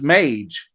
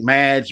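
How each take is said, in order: First: The vowel sounds like the one in 'page'. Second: The vowel sounds like the one in 'badge'. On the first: The speaker calls it right. "that is the correct pronunciation" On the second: The speaker calls it wrong. "I don't know why I thought mad. I think Madge"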